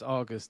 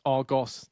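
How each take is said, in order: First: The last syllable has a reduced 'us' vowel. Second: The last syllable has a full 'oss' vowel.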